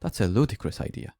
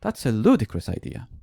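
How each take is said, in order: First: A touch of annoyance, lightly imitated; retelling the student's first mildly irritated try; teacher voicing a student, barely annoyed; slightly annoyed. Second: Mock exasperated retort, falling at the end; teacher imitating the student's most annoyed take; even more annoyed. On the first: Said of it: "say it as if she was slightly annoyed". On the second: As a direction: imitate the student at her crossest, still understated. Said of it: "be even more annoyed".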